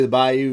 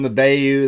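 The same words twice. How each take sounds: First: "Bayou" said as BYE-you; first vowel of "Bayou" as in eye; BYE-you pronunciation. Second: "Bayou" said as BAY-you; first vowel of "Bayou" as in day; BAY-you pronunciation. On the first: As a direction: say "Bayou" with a first syllable like buy. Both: Real, not acted. Tries two pronunciations of Bayou.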